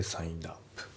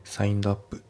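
First: サインドアップ run together as sainedap, softer; サインドアップ linked; linked pronunciation. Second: サインドアップ with each sound separate, louder; サインドアップ unlinked; unlinked reading. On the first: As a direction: glide サインドアップ into one word. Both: Shown as a demonstration. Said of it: "サインドアップじゃなくて".

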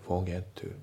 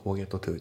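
First: "forget to" with a single T, as fo-ge-tu; dropped T. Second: "Forget to" as Japanese-style fo-get-to-tu; fully sounded T. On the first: Teacher correcting the version with both Ts in forget to, dropped T. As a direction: leave out the T ending "forget". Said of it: "forgetのTも抜けますね". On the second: Teacher showing learners what to avoid in Forget to, both Ts sounded. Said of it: "じゃなくて". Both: Shown as a demonstration.

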